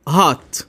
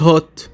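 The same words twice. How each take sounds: First: Hot with an open ah vowel; American hot. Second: Hot said the other way; the hot to avoid; not this hot. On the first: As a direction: say hot as haht, American style. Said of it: "احنا بنقول hot". (hot بنطق أمريكي مفتوح) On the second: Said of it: "مش hot". (hot بالنطق الغلط) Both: Shown as a demonstration.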